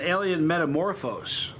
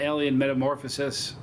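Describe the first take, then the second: First: The last word ends without a 'sis' syllable. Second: The last word ends with an extra 'sis' syllable. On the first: The speaker calls it right. "It's an alien metamorphose" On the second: The speaker calls it wrong. "I've been saying it wrong"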